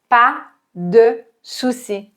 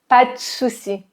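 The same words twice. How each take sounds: First: The phrase is said at a slower pace. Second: The phrase is said at a faster pace.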